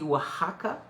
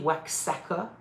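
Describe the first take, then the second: First: The word is said the local way. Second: The word is read as it is spelled. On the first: "mais ça se dit Oaxaca" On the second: "Ça s'écrit Oaxaca"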